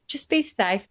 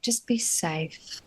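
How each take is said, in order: First: Said in the usual way. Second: Softer, slow advice. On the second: Retold or imitated. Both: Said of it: "I say that to her all the time".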